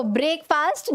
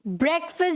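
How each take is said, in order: First: ब्रेकफास्ट as "brake-faast"; long "ay" and "aa" in ब्रेकफास्ट; wrong pronunciation. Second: ब्रेकफास्ट as "BREK-fust"; short vowels throughout ब्रेकफास्ट; correct pronunciation. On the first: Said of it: "ब्रेकफास्ट नहीं". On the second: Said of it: "आप क्या बोलेंगे?". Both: Shown as a demonstration.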